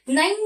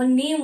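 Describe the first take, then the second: First: नईम with an ee-sound in the middle; नईम split into na-eem; wrong Hindi-style vowel. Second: नेम said as "naym" with a long ay; नेम with the English ay sound; correct English vowel. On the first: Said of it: "नईम नहीं होता". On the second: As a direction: say नेम, not नईम. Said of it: "वो नेम होता है". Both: Shown as a demonstration.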